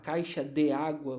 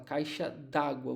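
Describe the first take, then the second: First: 'De' and 'água' are said as separate syllables. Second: 'De' and 'água' merge into one syllable. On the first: "em vez de você falar caixa de água" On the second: "Você juntou o D com o A e virou d'água, virou uma única sílaba"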